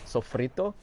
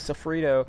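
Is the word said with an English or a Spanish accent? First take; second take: Spanish; English. First: The word is said with a Spanish accent. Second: The word is said with an English accent. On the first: "Do I have to do everything with a Spanish accent?" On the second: "I can't just say it, like, in English"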